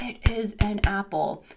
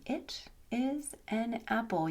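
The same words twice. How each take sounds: First: "It is an apple" hammered word by word, slowly; banged-out drilling. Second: "It is an apple" soft and very slow, higher pitch; gentle teaching technique. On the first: Retold or imitated. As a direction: drill each word of "It is an apple" as a separate beat. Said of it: "bang those complete sentences into the child's head". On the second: Shown as a demonstration. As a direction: softly space out each word of "It is an apple" for a learner. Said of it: "a little technique".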